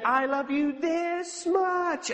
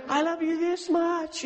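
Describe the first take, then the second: First: Slow, high, tender voice of Jesus; Jesus speaking tenderly. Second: Slower, higher loving voice of Jesus; Jesus speaking tenderly. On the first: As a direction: stretch each word out lovingly. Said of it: "he said". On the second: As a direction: draw it out with delight. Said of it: "And so". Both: Retold or imitated.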